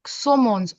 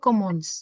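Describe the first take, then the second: First: The word begins with an s sound. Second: The word begins with a k sound. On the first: The speaker calls it wrong. "इसका प्रोनाउंसिएशन हो जाएगा समो सोमोन्स" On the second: The speaker calls it right. "ओ के साथ आता है इट्स क"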